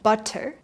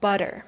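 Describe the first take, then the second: First: The middle T is a clear T. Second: The middle T is a soft D. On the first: "that's the textbook way to pronounce it" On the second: "In natural speech, it will sound like butter"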